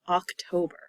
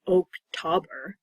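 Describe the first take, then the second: First: The first vowel is a short O sound. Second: The first vowel is a long O sound. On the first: The speaker calls it right. "One is a short O, ah" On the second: The speaker calls it wrong. "It's not Oktober. That sounds silly to me"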